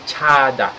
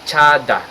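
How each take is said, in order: Both takes have the same delivery.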